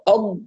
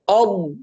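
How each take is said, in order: First: The consonant is made with the tongue tip. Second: The consonant is made with the tongue sides. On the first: The speaker calls it wrong. "الصوت طلع من الطرف فهذا خطأ" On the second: The speaker calls it right. "يبقى التركيز والتمكين لحافتي اللسان"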